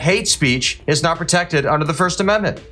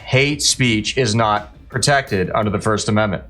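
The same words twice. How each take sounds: First: It is said at normal speed. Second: It is said more slowly.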